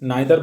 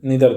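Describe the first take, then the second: First: The first vowel sounds like 'eye'. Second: The first vowel sounds like 'ee'. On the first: "নাইদার বলতে পারি British ইংলিশে" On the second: "American English এখন আমরা যদি বলি নিদার বলি"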